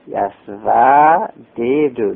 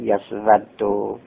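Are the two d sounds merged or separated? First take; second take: separated; merged. First: The two d sounds are pronounced separately. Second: The two d sounds merge into one doubled d. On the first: This is the underlying original form. "یسودو هم یسوددوه" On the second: This is the actual used form after assimilation. "دال اول را ساکن میکنیم در ثانی ادغام میکنیم، میشد یسودو"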